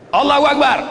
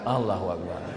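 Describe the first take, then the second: First: The call is loud and forceful. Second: The call is soft and feeble. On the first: The person has not eaten yet. "Ini kuat karena belum makan" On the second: The person has already eaten. "Kalau udah makan"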